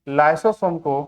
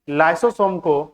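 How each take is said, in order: No difference in how they are said.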